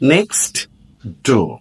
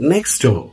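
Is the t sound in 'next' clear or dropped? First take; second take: clear; dropped. First: The words are separate with a clear t. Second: The words run together quickly, t dropped. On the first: "শব্দ দুটোকে আলাদা আলাদা করে উচ্চারণ করলে স্পষ্ট একটা টি এর আওয়াজ শোনা যাবে" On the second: "একত্রে এবং দ্রুত উচ্চারণ করলে"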